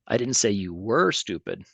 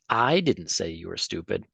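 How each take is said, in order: First: The word were carries the main stress. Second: The word I carries the main stress. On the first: The listener is still stupid now. "I actually think you are stupid" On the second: Someone else said it. "if I put the put this emphasis on that, I'm basically saying that somebody else did"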